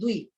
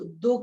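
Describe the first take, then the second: First: The syllable is said as 'dvi' with v. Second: The syllable is said as plain 'do'. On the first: The speaker calls it right. "द्वि बोलना है" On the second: The speaker calls it wrong. "कुछ लोग सा दो, दो कर देते हैं, ऐसे नहीं बोलना है"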